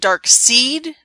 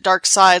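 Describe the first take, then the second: First: The second part rhymes with 'need'. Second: The second part rhymes with 'ride'. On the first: It follows the spelling. "I always want to call him Dark Seed because, you know, that's how it's spelled" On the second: It is the usual, German-style reading. "everyone else always pronounces it Dark Side like it's German"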